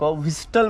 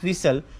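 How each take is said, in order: First: The word is said with a T sound. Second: The word is said with no T sound. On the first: The speaker calls it wrong. "नव्वद टक्के लोक व्हिस्टल म्हणून असं ओळखलं जातं" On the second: The speaker calls it right. "याला म्हणतात व्हिसल"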